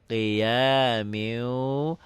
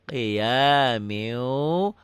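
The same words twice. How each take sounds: No difference in how they are said.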